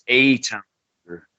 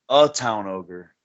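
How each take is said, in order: First: The first word is said like letter A. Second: The first word is not said like letter A. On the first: The speaker calls it right. "anyone from Atlanta knows it's called eight" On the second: The speaker calls it wrong. "they weren't pronouncing it right"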